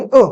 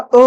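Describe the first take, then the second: First: Said in the usual way. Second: "अ" sustained as a long vowel; lengthened vowel. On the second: Shown as a demonstration. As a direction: hold "अ" well past its short length. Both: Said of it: "थोडासा उशीर".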